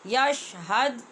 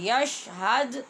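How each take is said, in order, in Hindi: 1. अंतिम D सपाट है, कोई उछाल नहीं। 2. अंतिम D गूँज वाली उछाल के साथ छोड़ा जाता है। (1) "ये गलत है" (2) "दाल पे कलकला भी नहीं भूलना"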